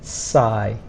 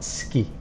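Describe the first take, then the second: First: It starts with a plain s sound. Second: It starts with an sk sound. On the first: The speaker calls it right. "the pronunciation is sci" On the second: The speaker calls it wrong. "It's not ski"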